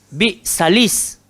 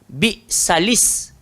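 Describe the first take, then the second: Both takes have the same delivery.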